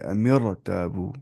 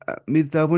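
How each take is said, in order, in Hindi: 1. R की ध्वनि भारी और भरी हुई है। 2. R की ध्वनि हल्की और पतली है।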